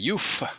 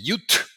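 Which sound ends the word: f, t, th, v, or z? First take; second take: f; t. First: The word ends with an f sound. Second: The word ends with a t sound. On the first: "Some people say youf, like a f" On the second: "People say yut, t, like a T"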